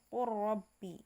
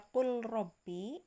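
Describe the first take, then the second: First: The l merges into a doubled r. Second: The l is pronounced before the r. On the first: "maka dibaca menjadi langsung ke ro ya" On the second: "pada qul rabbi lam bertemu ro"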